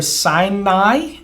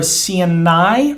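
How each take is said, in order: First: Sinai said as sigh-nai; English pronunciation. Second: Sinai drawn out slowly, see-nai; elongated Hebrew vowel. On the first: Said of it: "Sinai is how we would say it in English". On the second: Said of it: "so we're making it long". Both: Shown as a demonstration.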